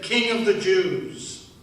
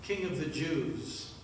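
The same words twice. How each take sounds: First: Mock proclamation. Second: Humble request. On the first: Thief reading the soldiers' sign aloud, slow and mocking. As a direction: announce it big and slow, with scorn. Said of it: "It said". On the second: Acted. Dying thief humbly addressing the man on the center cross. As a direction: ask gently, with no demand in it. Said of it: "I asked".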